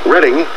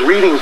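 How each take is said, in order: First: The first vowel sounds like in 'red'. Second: The first vowel sounds like in 'reed'. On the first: This is the town's usual name. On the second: The town is a place where people like to read.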